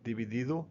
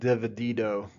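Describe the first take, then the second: First: The vowels are short, steady Spanish vowels. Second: The vowels are glided like English vowels. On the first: The speaker calls it right. "all the vowels, they are always going to sound the same" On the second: The speaker calls it wrong. "It's not dividido"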